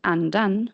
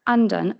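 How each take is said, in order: First: "andan" in Swedish with two pitch peaks; "andan" with a primary and secondary peak; Swedish accent two. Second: "andan" in Swedish with a single pitch peak; "andan" with just one melodic peak; Swedish accent one. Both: Shown as a demonstration. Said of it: "internal distinction between minimal pairs".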